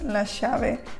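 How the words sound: The 'll' is pronounced like 'sh'.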